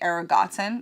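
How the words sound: It is said with a German accent.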